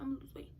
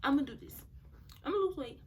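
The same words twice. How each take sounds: First: Said in the usual way. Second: Higher, louder retold resolve; determined. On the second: Speaker replaying her vow to lose weight, determined. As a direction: declare it like a self-promise.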